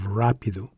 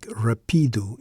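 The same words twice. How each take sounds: First: "rápido" as RAH-pee-doo; first-syllable stress on "rápido", weak ending. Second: "rapido" misread as ra-PEE-doo; middle-stressed "rapido", long ee. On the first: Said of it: "instead of rápido, which is incorrect". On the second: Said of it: "P would likely take the stress". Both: Shown as a demonstration.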